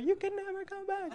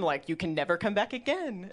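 First: Very high, hushed echo of a warning; mock fantasy-film warning. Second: Said in the usual way. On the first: Comedian parodying the visa warning, hushed and high melodrama. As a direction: float it high and soft, melodramatically. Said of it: "like the never-ending story". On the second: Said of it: "and they're like".

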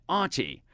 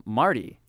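First: British r-less "Artie", pitched up; mock an English mishearing; higher-voiced British imitation; English accent. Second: Said in the usual way. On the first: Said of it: "especially from, uh, England". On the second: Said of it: "And I'm like".

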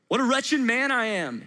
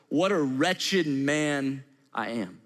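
First: Said in the usual way. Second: Slow and lower, lingering on "What a wretched man I am"; slow lament. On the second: Acted. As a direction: draw out each word, heavy with regret. Quoting Paul's lament, repeated.

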